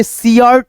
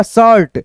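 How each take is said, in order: First: सियर्ट with an I glide before ART; wrong reading. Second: शर्ट with one open vowel before R; शर्ट like "shart", not "si-art"; correct reading. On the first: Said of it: "नहीं पढ़ना". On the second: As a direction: say शर्ट as one syllable, no I glide. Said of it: "क्या होगा". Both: Shown as a demonstration.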